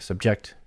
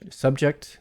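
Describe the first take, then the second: First: The stress is on the last syllable. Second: The stress is on the first syllable. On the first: It is used as a verb. "a verb" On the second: It is used as a noun.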